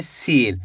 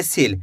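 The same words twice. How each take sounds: First: सील with a long, stretched ee; drawn-out vowel. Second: सील with a short i, "sil"; less drawn-out vowel. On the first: Teacher showing the big-ee matra, drawn-out सील. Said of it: "खींच के पढ़ा जा रहा है". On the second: Teacher showing the small-i matra, short-vowel सील. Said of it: "कम खींच के पढ़ेंगे". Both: Shown as a demonstration.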